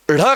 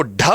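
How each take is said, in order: First: ढ as a flapped rh; required flapped ढ़. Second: ढ as a stopped aspirated dh; hard ढ to avoid. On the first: Teacher shows what to say mid-word, ढ as light flap. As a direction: roll the tongue quickly off the palate for ढ. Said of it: "करना है". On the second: Teacher shows what not to say mid-word, ढ as hard stop. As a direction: press and release ढ firmly. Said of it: "नहीं करके". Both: Shown as a demonstration.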